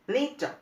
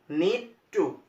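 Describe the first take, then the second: First: The two words blend into one reduced word. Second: Both words are said fully and separately. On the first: "the words become need" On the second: "Instead of using need to"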